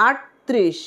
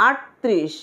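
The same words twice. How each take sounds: Both takes have the same delivery.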